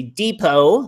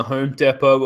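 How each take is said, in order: First: "Depot" as DEE-po, rising; American pronunciation. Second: Said in the usual way. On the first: Shown as a demonstration. Host corrects himself to the American way, "Depot" as DEE-po. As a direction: say "Depot" with a long ee, American-style. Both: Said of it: "or as Americans say".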